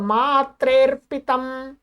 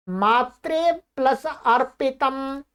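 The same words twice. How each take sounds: First: मात्रेर्पितम slow, as one word; joined, silent अ. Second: मात्रे plus अर्पितम slow, parts separate; unjoined words. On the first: Teacher giving the practice answer, joined with silent अ. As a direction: run मात्रे straight into र्पितम. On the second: Teacher giving a practice example, unjoined. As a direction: sound the अ opening अर्पितम. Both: Shown as a demonstration. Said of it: "अ है वो silent हो जाता है".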